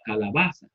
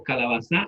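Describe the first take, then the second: First: Calabaza as calaBAza, stress on ba; stress on the penultimate syllable. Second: Calabaza as calabaZÁ, end stressed; stress on the last syllable. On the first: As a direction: lean on the ba of calabaza. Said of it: "va con mayor intensidad". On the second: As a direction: hit the final za in calabaza. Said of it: "lo pusiéramos al final". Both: Shown as a demonstration.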